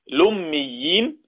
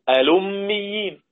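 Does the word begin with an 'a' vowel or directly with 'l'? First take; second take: l sound; a vowel. First: The word begins directly with an 'l' sound. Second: The word begins with a glottal stop and 'a'.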